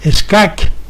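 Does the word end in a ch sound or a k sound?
k. The word ends with a k sound. A Catalan speaker would say it this way. "un catalano parlante las pronunciaría con Q final"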